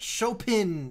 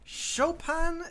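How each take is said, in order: First: The last syllable has an 'i' vowel sound. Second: The last syllable has an 'a' vowel sound. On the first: "but Chopin sounds awful" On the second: "it's pronounced like an A"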